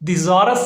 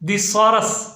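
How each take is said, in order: First: The middle consonant is a z sound. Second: The middle consonant is an s sound. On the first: The speaker calls it wrong. "दिजॉरस नहीं पढ़ना" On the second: The speaker calls it right. "इसकी जो सही pronunciation है वो है दिसॉरस"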